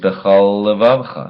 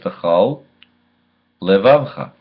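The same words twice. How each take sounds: First: The two L sounds merge into one. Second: The two L sounds are said separately. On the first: The speaker calls it wrong. "That was two lameds slurred into one" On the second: The speaker calls it right. "It says Bechal Levavcha"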